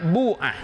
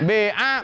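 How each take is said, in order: First: The first vowel is a clear u sound. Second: The first vowel is between i and u. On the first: "boleh juga dibaca dhammah" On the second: "dibaca ismam"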